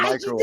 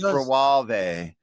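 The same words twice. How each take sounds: First: It uses the speaker's own ordinary pronunciation. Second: It copies a cooking host's British pronunciation. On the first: It is the usual way to say it. "instead of" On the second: It imitates how someone else says it. "she said microwave instead of"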